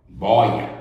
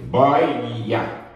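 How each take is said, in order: First: Said in the usual way. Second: "Boia" stretched with an open ói, then the final a; open diphthong, drawn out. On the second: Shown as a demonstration. ("Boia" alongado, com ói bem aberto)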